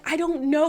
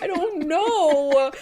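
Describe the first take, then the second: First: High, lightly upset retelling; mildly mock-crying, pitched up; retold tearful reply. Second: High, drawn-out mock wail; mock crying. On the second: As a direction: wail it slowly, imitating a crybaby. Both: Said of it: "but you were crying".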